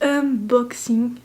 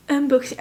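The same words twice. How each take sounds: First: "unboxing" very slowly, piece by piece; slow, deliberate "un-box-ing"; careful pronunciation. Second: Tongue-tripping attempt at "unboxing"; stumbling pronunciation. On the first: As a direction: draw out "unboxing" to get the hard word right. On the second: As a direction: say "unboxing" quickly, tripping over the English word. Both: Real, not acted. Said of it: "c'est dur à dire".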